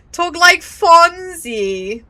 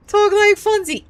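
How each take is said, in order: First: Drawn-out, loud and higher; excited urging. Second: Quicker, much higher repeat; excited urging. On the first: Streamer reacting to the game's slang, excited urging. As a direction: stretch it out in a raised, delighted call. Streamer chants before impression. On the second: Streamer cueing a Fonzie impression, excited urging. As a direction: toss it out high, cueing your own impression. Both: Real, not acted.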